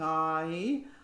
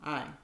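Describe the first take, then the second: First: The vowel is a full, open gliding diphthong. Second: The vowel is clipped, eaten and slightly nasal. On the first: The speaker calls it right. "think of it as a diphthong" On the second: The speaker calls it wrong. "it's like it's eaten and slightly nasal"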